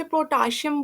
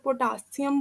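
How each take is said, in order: First: पोटेशियम said as "protashiyam", with an r after the p and an sh sound; पोटेशियम with a rolled r slipped in, "pro-ta-shi-yam"; one way to say it. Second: पोटेशियम as "po-ta-si-yam", no r, s not sh; the other way to say it. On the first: Teacher showing how some students say it, पोटेशियम as "protashiyam". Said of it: "कुछ लोग इसे पोटेशियम बोलते हैं". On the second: Teacher giving the second student pronunciation, पोटेशियम as "potasiyam". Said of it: "कुछ लोग पोटेशियम बोलते हैं". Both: Shown as a demonstration.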